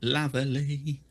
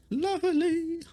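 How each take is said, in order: First: Said in the usual way. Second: High, lilting lovely; high sing-song. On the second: Real, not acted.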